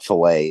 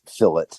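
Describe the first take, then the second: First: It is said the French way. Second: It is said the English way. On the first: The speaker calls it wrong. "it's not fillet" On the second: The speaker calls it right. "it's fillet"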